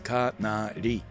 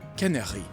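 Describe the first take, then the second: First: It is said as three even Japanese-style syllables. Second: It is said with a French pronunciation. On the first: The speaker calls it wrong. "I thought that this was like Japanese syllabary because it's just three syllables" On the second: The speaker calls it right. "Canary is how you say canary in French"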